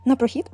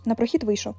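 First: A light guffawing jeer on "На прохід?"; mocking laugh. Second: Said in the usual way. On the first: A narrator's reading. Hare mocks the hedgehog's stroll, with a light laugh. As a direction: scoff back at the hedgehog, mildly amused. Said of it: "зареготався заєць". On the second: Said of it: "відповів їжак".

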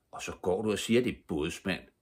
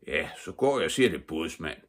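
First: Lightly voiced scandalised child; indignant. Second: Lightly voiced grandfather, quick start; a hint of an old man conceding the point; grandfather's retort. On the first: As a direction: protest with a touch of outrage. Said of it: "sagde Stine forarvet". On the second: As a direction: echo it back briskly, then ease off. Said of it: "sagde hendes morfar". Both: A narrator's reading.

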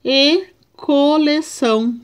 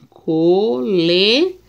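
First: Said in the usual way. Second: "Coleção" said slowly, syllable by syllable; "Coleção" spaced into syllables; slow syllable reading. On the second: Shown as a demonstration. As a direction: spell out "Coleção" in slow beats. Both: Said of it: "vamos ver a separação".

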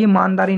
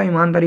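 First: ईमानदारी without its opening long ee, as "maandaari"; misread word. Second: Said in the usual way. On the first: Shown as a demonstration. Teacher showing a misreading of ईमानदारी, first vowel missing. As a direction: drop the first vowel of ईमानदारी, starting on "maan". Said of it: "ये आप मात्रा मत लगाइए, ईमानदारी नहीं होता". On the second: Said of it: "ईमानदारी होता है".

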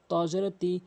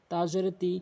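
First: "তি" with a heavy, full t. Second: "তি" with a light, thin t. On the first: Teacher contrasting letters, "তি" with heavy t. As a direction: thicken the t of "তি". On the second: Teacher contrasting letters, "তি" with light t. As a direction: keep the t of "তি" thin. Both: Shown as a demonstration. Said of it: "হরফের পার্থক্যগুলো".

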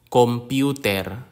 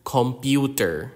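First: "computer" with a clear e and tapped final r; "computer" ending in a crisp Filipino -ter; Filipino pronunciation. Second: "computer" with an English r at the end; English pronunciation. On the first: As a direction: say "computer" as a Filipino loanword, full final vowel. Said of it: "consonant clusters are found in loan words". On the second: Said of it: "from the English word computer". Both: Shown as a demonstration.

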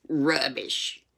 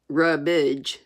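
First: British-sounding "Rubbish"; slightly British aunt, dismissive; too British. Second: "Rubbage" for rubbish, un-British; folksy pronunciation. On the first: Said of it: "sounded too British". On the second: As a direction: say "Rubbage" ending like cabbage. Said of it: "too British for Aunt Polly". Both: Acted.

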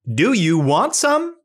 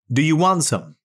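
First: Rising question tune up to SOME; slow question, pitch climbing on "some"; asking. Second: Said in the usual way. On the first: Shown as a demonstration. Robot asking for information, voice rising on "some". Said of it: "the robot is asking for information". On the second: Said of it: "back to our reading robot".

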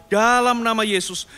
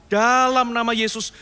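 The two takes are said the same way.

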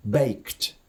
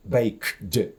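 First: Baked said as one word ending in a T sound; voiceless ending. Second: Baked broken into bake plus a voiced "dy"; separate voiced D. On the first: Teacher models the correct reading, voiceless T ending on baked. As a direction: run the K of baked straight into a crisp T. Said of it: "після глухих звуків воно читається глухо". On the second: Teacher shows why it is awkward, detached voiced D on baked. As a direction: stop after the K of baked, then release a separate D. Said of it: "вимовити окремо д". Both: Shown as a demonstration.

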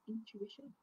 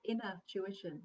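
First: Said in the usual way. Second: "inner tuition" as two words, leaning on INNER; "inner tuition" pulled apart, first word louder; split as "inner tuition". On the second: Shown as a demonstration. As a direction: say "inner tuition" distinctly, punching INNER. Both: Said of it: "They call it inner tuition".

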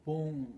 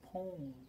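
First: "Porn" punched out loud; loud, emphatic "Porn"; porn said hard. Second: "porn" higher-pitched, at normal volume; "porn" without any punch. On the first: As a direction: hit "Porn" hard at normal pitch. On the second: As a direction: say "porn" lightly with a falling end. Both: Shown as a demonstration. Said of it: "porno ways of saying".

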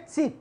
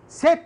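First: ست as "sit", tighter short i; stronger kasra. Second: ست as "set", open e, higher and louder; looser kasra. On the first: Teacher contrasts two words, second ست as "sit". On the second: Teacher contrasts two words, first ست as "set". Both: Shown as a demonstration. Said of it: "أشد كسرا بحاجة بسيطة".

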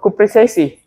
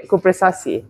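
First: Cupressaceae with an AY in the third syllable, "koo-preh-SAY-see"; mistaken pronunciation. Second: Cupressaceae with an open AH, "koo-preh-SAH-see"; corrected Cupressaceae, "SAH" in the middle; British pronunciation. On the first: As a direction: say Cupressaceae the American way, stressed SAY. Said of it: "Oh no, uh, Cupressaceae". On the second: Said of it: "use the British pronunciation". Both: Shown as a demonstration.

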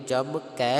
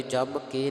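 First: ਕੈ said with an open ai vowel from the dulavan; ਕੈ with open ai, as the correct reading; correct vowel demo. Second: ਕੇ said with a plain closed e, the wrong way; wrong vowel demo. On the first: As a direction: give ਕੈ its open ai sound, the right way. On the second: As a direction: say ਕੇ with a short closed e, as the mistake. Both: Shown as a demonstration. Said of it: "ਜਮ ਕੇ ਨਹੀਂ".

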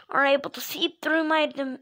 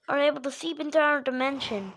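First: Breaking off mid-word on "dim-"; verbal slip. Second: Said in the usual way. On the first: Acted. Mario explains the dimension theory, slipping up on "dim-". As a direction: slip up and cut "dim-" short. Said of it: "Your voice cracked for a second". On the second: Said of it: "you slipped up".

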